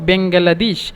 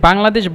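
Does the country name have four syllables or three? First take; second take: four; three. First: The name is said with four syllables. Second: The name is said with three syllables. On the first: Egyptians will understand it and recognize the country. The speaker calls it right. "আমরা উচ্চারণ করব বেঙ্গালাদেশ" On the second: Many Egyptians will not understand it. The speaker calls it wrong. "বাংলাদেশ বলবেন না"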